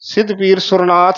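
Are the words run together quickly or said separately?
run together. The words are run together quickly. The speaker calls it wrong. "ਸਿੱਧ ਪੀਰ ਸੁਰਨਾਥ ਨਹੀਂ ਕਹਿ ਜਾਣਾ"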